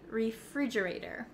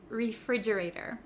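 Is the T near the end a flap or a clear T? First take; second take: flap; flap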